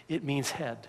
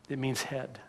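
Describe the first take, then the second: No difference in how they are said.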